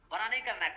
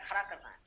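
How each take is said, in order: First: "बड़ा नहीं" set apart, higher, falling at the end; "नहीं" stressed as first half of a contrast; stress on rejected word. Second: "खड़ा" stressed, then falling to a close; "खड़ा" punched as second half of a contrast; stress on replacement word. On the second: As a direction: land on "खड़ा" as the answer. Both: Shown as a demonstration. Contrasts two rhyming words of slogan.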